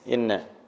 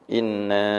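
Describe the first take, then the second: First: The vowel in the word is held short. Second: The vowel in the word is held long. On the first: "Ini yang pendek" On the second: "Ini yang panjang"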